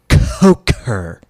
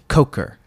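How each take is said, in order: First: The name is said with more punch and energy. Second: The name is said plainly, without extra punch.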